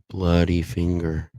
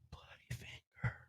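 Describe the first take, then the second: First: It is said more loudly. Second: It is said faintly and quietly.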